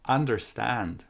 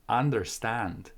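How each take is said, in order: First: The first syllable has an 'a' vowel. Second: The first syllable has an 'a' vowel.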